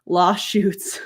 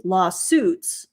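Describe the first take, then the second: First: "Lawsuits" said as "law-shoots"; mimicked slip. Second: Said in the usual way. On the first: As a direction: replay the slip, SH in the middle of "Lawsuits". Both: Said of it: "that's a new one".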